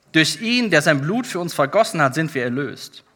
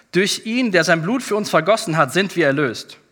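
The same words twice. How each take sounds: No difference in how they are said.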